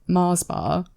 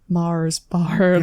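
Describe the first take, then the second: First: It is said in the speaker's own accent. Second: It is said in an imitated Scottish accent.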